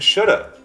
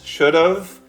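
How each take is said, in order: First: The words blend into one, ending in 'uh'. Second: Both words are said fully and separately. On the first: "Should have becomes should have and shoulda"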